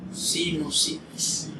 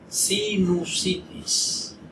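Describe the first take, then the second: First: The second syllable is pronounced 'no'. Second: The second syllable is pronounced 'nu'. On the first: The speaker calls it wrong. "No sino" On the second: The speaker calls it right. "Lo correcto es sinu"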